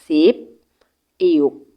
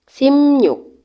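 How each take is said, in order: First: Two syllables said separately with a p sound. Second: One joined word with the p becoming m.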